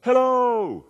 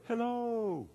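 First: High drawn-out call across a canyon; yelled out. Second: High, soft distant echo. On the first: Amazed son yells into the Grand Canyon, yelled out. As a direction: holler it high and long into the distance. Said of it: "he yelled out, and he said". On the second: The canyon answers the son, distant echo. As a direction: send it back faint and high, like a canyon echo. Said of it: "all of a sudden he heard". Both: Acted.

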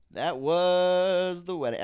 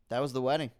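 First: Slow, louder line said off-mic; drawn out, away from the mic. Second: Said in the usual way. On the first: Shown as a demonstration. Wrapping up the wedding story, drawn out off-mic. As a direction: stretch it like Bill Burr stepping back. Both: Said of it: "why do I do that with my voice?".

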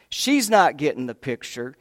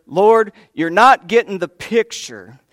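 First: Said in the usual way. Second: Loud, higher exasperated demand on not; demanding complaint. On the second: Retold or imitated. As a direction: push it at the Lord, fed up and insistent. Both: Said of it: "she's actually demanding".

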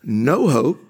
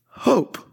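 First: "No hope" with "No" hit firmly, slow fall; stress on no hope. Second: "hope" lifted high and bright, falling; stress on hope. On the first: Preacher contrasting with hope: "No" stressed. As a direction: lean on "No" in "No hope". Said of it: "people who had no hope". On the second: Preacher answering despair: "hope" raised. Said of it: "now have hope". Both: Shown as a demonstration.

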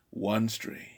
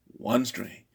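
The two takes are said the same way.

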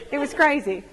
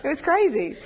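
First: Said in the usual way. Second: "It was crazy" through a laugh; "It was crazy" with a real laugh. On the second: Real, not acted. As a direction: laugh it out in disbelief.

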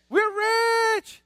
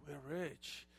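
First: Loud, high celebratory shout; excited good news. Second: Low, very soft admission; subdued bad news. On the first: Preacher proclaims the good news to the congregation, excited shout. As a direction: announce it high and triumphant. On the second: Preacher delivers the bad news to the congregation, subdued. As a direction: let it drop low and quiet. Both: Shown as a demonstration.

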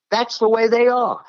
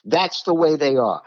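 First: "they" lifted high and leaned on, falling at the end; preacher driving home "they", said high and emphatic; emphatic repeat. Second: Said in the usual way. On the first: Real, not acted. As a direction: land hard on "they" the second time round.

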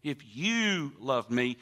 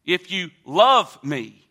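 First: YOU drawn out, the rest softer; stress on YOU. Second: Slow down and hit the word LOVE; a big, stretched LOVE mid-phrase; stress on LOVE. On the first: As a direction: lean slowly on the word YOU. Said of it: "we realize it's personal". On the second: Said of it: "the word love there". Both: Shown as a demonstration.

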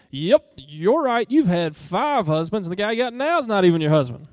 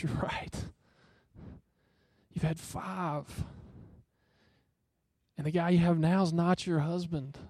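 First: Arrogant sarcasm. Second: Softer tender whisper, slowing down; broken, grieving. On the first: Preacher mocks a gloating Jesus to the congregation, loud and sarcastic. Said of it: "So with this arrogance, with this boastfulness". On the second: Jesus tells the woman her truth, softly and tenderly. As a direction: breathe it out gently, full of compassion. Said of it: "He is broken for her right then". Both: Retold or imitated.

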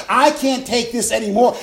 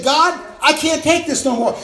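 First: Said in the usual way. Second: Loud despairing cry to God, high. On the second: Retold or imitated. A believer crying out to God, loud and high. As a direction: throw the words up at God.

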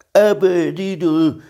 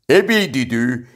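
First: High, drawn-out musing bear voice; pondering. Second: Loud, raised tiger call; shouting. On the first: Pooh echoing Tigger at noon, pondering. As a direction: stretch the word out as if pondering it. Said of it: "ismételte Mici Mackó elmélkedve". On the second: Tigger bursting into Piglet's house, shouting. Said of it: "kiabált a Tigris". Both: A narrator's reading.

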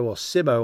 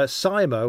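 First: "Simo" with a short i, SIM-oh. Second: "Simo" with a long "sigh" vowel, SIGH-mo. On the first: Commentator corrects the rider's name to SIM-oh. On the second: Commentator tries out the rider's name as SIGH-mo. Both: Shown as a demonstration. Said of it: "or whatever he likes to call himself".

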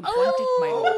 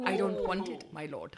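First: High, loud hammed-up English accent; overdone English accent, up high and loud; Tyrion impression. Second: Put-on subdued English accent with a laugh; laughing, lightly English-accented, fading; Tyrion impression. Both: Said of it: "best Peter Dinklage as Tyrion".

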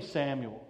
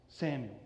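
First: Said in the usual way. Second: Samuel repeated much softer and lower; soft echo. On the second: Shown as a demonstration. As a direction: let the name Samuel fall away, savouring it.

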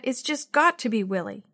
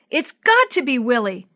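First: Restrained, hopeful insistence. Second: Loud, emphatic certainty; excited insistence. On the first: Boy hoping to his dad about his friend, restrained insistence. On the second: Boy sure his friend sends the signal, excited. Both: A narrator's reading.

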